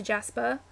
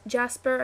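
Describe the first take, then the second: First: British "Jasper" with the final r dropped; British accent. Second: Said in the usual way. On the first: Shown as a demonstration. Showing how the cousins' talk rubs off, British "Jasper" without the r. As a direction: say "Jasper" as Jaspa, British style. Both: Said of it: "it's just, it's all British".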